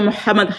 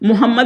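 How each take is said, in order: First: The h sound is strong and throaty. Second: The h sound is soft and weak. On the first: This is how Arabs say it. "हा को वो जाने नहीं देते" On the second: This is how non-Arabs say it. "मोहम्मद हम कहते हैं"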